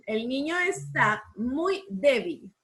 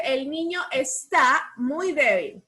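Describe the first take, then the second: First: El niño está muy débil repeated slowly and evenly; teacher repeating the dictation. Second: El niño está muy débil read slowly with stress on muy; teacher dictating to the class; slow dictation. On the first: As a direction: dictate the sentence again, steady and slow. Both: Shown as a demonstration. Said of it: "¿Dónde llevará tilde?".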